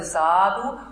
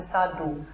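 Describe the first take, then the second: First: The first vowel is long. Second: The first vowel is short. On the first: "Also es hat ein langes A" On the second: "er ist ein kurzes A"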